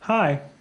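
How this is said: It is said in a bear's voice.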